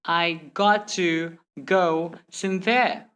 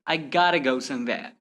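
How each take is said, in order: First: Slow, "got" and "to" separated; word-by-word. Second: "gotta" run together as one word; merged letters. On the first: Teacher showing the slow way to avoid, word-by-word. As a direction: say every word by itself. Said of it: "Instead of saying". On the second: Teacher giving learners the faster version, merged words. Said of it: "simply say". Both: Shown as a demonstration.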